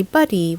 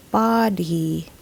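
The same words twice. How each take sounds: First: Buddy with a short UH, BUH-dee; local mispronunciation. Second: Body with open AH, BAH-dee; correct pronunciation. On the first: Teacher shows how locals say body, as buddy. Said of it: "Locals would usually say". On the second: Teacher models the English vowel, body as BAH-dee. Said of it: "this should be pronounced body". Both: Shown as a demonstration.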